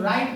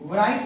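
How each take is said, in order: First: The word starts with an R sound, no W. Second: The word starts with a W sound before R. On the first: The speaker calls it right. "तो इसको हम लोग राइट पढ़ते हैं" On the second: The speaker calls it wrong. "ना कि राइट नहीं पढ़ते"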